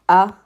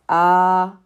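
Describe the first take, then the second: First: The vowel is cut short. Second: The vowel is held long. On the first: "your short vowel sounds" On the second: "your long vowel sounds"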